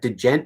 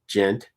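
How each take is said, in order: First: A d sound comes before the j sound. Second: It starts directly with a j sound. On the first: "But I always say" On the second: "Like gent"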